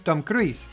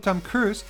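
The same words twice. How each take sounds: First: It is said with a Spanish pronunciation. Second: It is said with an English pronunciation.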